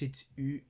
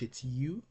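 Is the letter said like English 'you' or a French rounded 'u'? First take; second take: French u; English you. First: It has a rounded front French 'u' vowel. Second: It sounds like the English word 'you'. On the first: "but in French" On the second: "In English"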